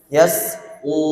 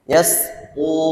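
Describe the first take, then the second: Both takes have the same delivery.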